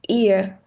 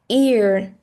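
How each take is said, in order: First: The word ends without any R sound. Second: The word ends with an audible R sound. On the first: "without R" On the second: "if it's with R"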